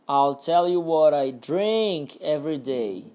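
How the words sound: The stress falls on the word drink. "Agora no drink"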